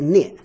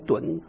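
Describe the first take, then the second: First: The syllable is read as nie. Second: The syllable is read as dun. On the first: "还有一个音是涅，n i e 涅第四声" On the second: "墩呢，d u n，墩三声墩"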